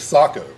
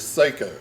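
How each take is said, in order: First: The first vowel is an open 'ah' sound. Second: The first vowel is an 'ay' sound. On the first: This is how it is said in its home country. "The Finnish pronunciation is Sako" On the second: This is how most people here say it. "The most common pronunciation that I've heard here is Seiko"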